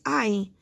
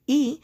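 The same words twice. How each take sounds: First: "I" said as long "eye"; I as a gliding "eye"; long I sound. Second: Short "ih" for the letter I, written "E"; the isolated short vowel "ih"; short I sound. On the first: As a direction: give I its letter-name sound, "eye". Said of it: "but it also says". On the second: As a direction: say E as the "ih" in "sit". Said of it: "The I says". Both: Shown as a demonstration.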